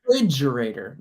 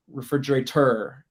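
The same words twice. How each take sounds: First: "refrigerator" punched on the FRIDGE syllable; re-FRIDGE-erator, correctly stressed. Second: "refrigerator" with the weight on the final TOR; mis-stress "refrigerator" toward its end; learner's refrigera-TOR, end-stressed; misplaced stress. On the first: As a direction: lean hard on FRIDGE in "refrigerator". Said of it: "The emphasis on the fridge part". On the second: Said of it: "putting the emphasis on the wrong part". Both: Shown as a demonstration.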